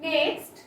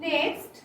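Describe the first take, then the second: The two takes are said the same way.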